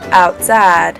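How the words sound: It has a Southern New Orleans pronunciation.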